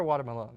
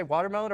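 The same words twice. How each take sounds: First: "watermelon" said as water-muh-LOAN; playful mispronunciation. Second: Said in the usual way. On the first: Shown as a demonstration. Host quizzing player on which she says, playful mispronunciation. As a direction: give "watermelon" a long O, rhyming its end with "alone". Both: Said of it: "Do you say watermelon or watermelon?".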